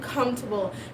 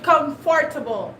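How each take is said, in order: First: A middle syllable is dropped in quick speech. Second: Every syllable, including the middle one, is pronounced. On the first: This is how people in the new country say it. "they said it comfortable" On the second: This is how the speaker's own community says it. "we say comfortable"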